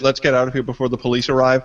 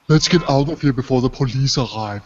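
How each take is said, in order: First: It is said in his plain, normal voice. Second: It imitates the game character's awkward voice.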